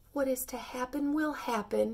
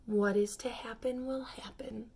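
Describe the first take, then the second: First: Sighing. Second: Unvoiced whisper to himself; whispered under his breath, resigned. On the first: Acted. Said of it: "he said with a sigh". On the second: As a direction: murmur it, resigned, just breath. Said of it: "he repeated to himself".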